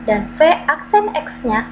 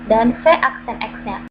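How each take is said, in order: Both takes have the same delivery.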